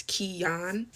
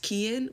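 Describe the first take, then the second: First: "Kian" drawn out as kee-YAHN; correct pronunciation. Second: "Kian" as others misread it, run together; common mispronunciation. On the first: Sister correcting people on brother's name "Kian", pronounced kee-yahn. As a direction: slowly say "Kian" in two parts, kee-yahn. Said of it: "but it's Kian". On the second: Sister quoting how everyone misreads brother's name "Kian", mispronounced. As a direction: say "Kian" the mistaken English-reader way. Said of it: "everyone always thinks it's pronounced". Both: Shown as a demonstration.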